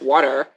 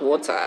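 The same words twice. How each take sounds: First: The word is said with an American accent. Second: The word is said with a non-American accent. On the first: Adopting the local pronunciation to be understood. "you just end up pronouncing it water" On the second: Keeping one's own original pronunciation. "And not water"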